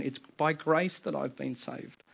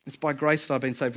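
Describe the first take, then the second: First: Quiet slow recitation. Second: Said in the usual way. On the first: Shown as a demonstration.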